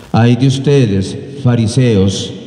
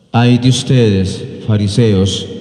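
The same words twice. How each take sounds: No difference in how they are said.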